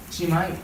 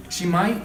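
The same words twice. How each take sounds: The two takes are said the same way.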